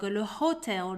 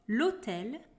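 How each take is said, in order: First: The h at the start is pronounced. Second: The h at the start is silent. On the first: The speaker calls it wrong. "we do not say" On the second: The speaker calls it right. "The letter H is silent in French"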